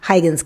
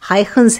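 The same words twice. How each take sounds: First: The name is said in a simplified, easier way. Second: The name is said with its native Dutch sounds. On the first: "हम इसे आसान तरीके से हाइगन्स कहेंगे" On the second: "सही उच्चारण हाइगन्स है"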